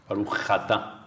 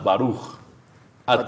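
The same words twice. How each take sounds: First: The two words run together without a pause. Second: A short pause separates the two words.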